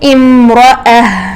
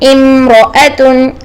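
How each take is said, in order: First: The word ends with a soft h sound. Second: The word ends with a full -tun syllable. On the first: The reader stops on this word. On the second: The reader continues without stopping.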